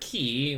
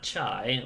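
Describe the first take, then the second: First: It sounds like the word key. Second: It sounds like the word chai in chai tea. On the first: "or key, which is what a certain game likes to call it" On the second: "not chai, like if you get chai tea"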